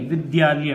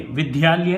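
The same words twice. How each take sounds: First: विद्यालय said vid-yaa-lay, with d and y joined in one cluster; the right way, विद्यालय with a tight dy; correct pronunciation. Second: विद्यालय said wrongly as vi-di-yaa-lay, with an extra i between d and y; the common mistake, विद्यालय split into vidi-yaalay; wrong reading. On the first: Teacher giving students the correct dy cluster in vidyaalay. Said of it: "मैं एक word वैसे ही बतला रहा हूँ". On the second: Teacher showing students the wrong way, split vidi-yaalay. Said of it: "विद्यालय नहीं". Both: Shown as a demonstration.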